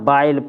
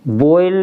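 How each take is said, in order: First: The vowel is an ah gliding to ee. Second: The vowel is a closed oh gliding to ee. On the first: "न बाइल पढ़ रहे" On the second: "बोयल नहीं पढ़ रहे हम"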